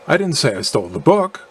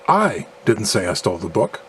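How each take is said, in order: First: The stress falls on the word book. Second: The stress falls on the second word I. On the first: Something other than the book was stolen. "implying that I did steal something other than the book" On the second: Someone else stole the book. "implying that someone else stole the book"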